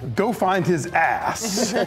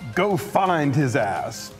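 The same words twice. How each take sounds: First: The stress falls on the word ass. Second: The stress falls on the word find. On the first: The body part itself is missing. "Like his ass is missing" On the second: The person must be found. "you would think that he would say"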